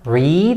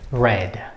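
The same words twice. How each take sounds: First: The vowel is not the vowel of 'red'. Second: The vowel is the vowel of 'red'. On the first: It is the present form of the verb. "is the present form of the verb read" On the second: It is the past form of the verb. "this one and the color red have same pronunciations"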